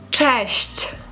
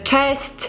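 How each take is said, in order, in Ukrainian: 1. Слово закінчується м'яким звуком 'shch'. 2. Слово закінчується твердим звуком 'st'. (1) "обережно слухаємо уважно" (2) "багато хто неправильно вимовляє це слово. Кажуть"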